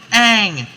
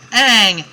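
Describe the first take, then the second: No difference in how they are said.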